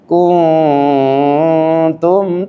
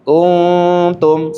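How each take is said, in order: First: The nasal hum is held much too long. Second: The nasal hum is held about two beats. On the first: The speaker calls it wrong. "Kepanjangan itu" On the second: The speaker calls it right. "ditahan, dua ketukan atau satu alif"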